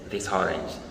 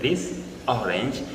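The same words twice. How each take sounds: First: The two words run together as one. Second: The two words are said separately. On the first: "they usually say this orange" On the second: "Instead of saying this orange"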